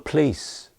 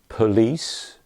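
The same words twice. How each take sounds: First: The word is said in reduced form. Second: The word is said in full form. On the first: The speaker calls it right. "call the police" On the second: The speaker calls it wrong. "not police"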